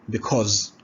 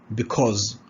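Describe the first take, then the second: Both takes have the same delivery.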